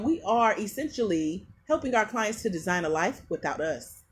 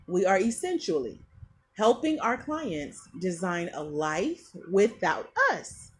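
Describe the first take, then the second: First: It is said at normal speed. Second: It is said slowly.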